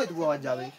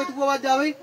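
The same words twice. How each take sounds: First: इतनी आवाज जा भाई said much softer and lower, as a weak call; teacher shows a weaker call that travels a shorter distance, said softly. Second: Said in the usual way. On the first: Shown as a demonstration. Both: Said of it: "अब मैं आवाज मारूंगा".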